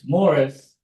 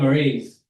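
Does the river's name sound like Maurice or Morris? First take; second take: Morris; Maurice. First: The name sounds like the word Morris. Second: The name sounds like the word Maurice. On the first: The speaker is from the area. The speaker calls it right. "it's Morris, but it's spelled like Maurice" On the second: The speaker is not from the area. The speaker calls it wrong. "if you say Maurice. You're not"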